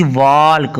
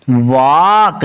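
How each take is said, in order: First: "वॉल्क" with an audible l before the k; wrongly sounded L. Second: "वॉक" with a long vowel straight into k; silent L. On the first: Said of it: "इसको वॉल्क नहीं पढ़ना". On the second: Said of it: "ये वॉक पढ़ना है". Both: Shown as a demonstration.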